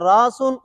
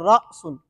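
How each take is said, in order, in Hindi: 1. बीच का स्वर बिना किसी अटकाव के नरमी से बहता है। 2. बीच में गले में एक झटकेदार अटकाव होता है। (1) "अलिफ नरमी से पढ़ा जाता है" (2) "हमजा झटके के साथ"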